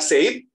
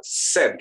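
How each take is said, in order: First: Said as "sayd", with a gliding vowel; "Said" with E sliding into I; sounded I. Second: Said as "sed", no I; "Said" with one short, pure E. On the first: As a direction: say "Said" to rhyme with "made". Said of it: "Apakah Said ataukah apa". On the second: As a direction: say "Said" to rhyme with "bed". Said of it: "Kira-kira yang mana yang benar". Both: Shown as a demonstration.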